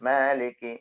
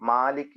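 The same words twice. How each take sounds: First: The first vowel leans slightly toward 'e'. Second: The first vowel is a plain open 'a'. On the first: The speaker calls it right. "മേ എന്ന ആവും" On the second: The speaker calls it wrong. "മാലിക്ക് എന്ന് പറയാതെ"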